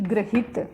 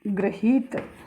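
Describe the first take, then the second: First: The second syllable has a short i vowel. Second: The second syllable has a long i vowel. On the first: The speaker calls it wrong. "न कि" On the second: The speaker calls it right. "ही की मात्रा बड़ी आती है"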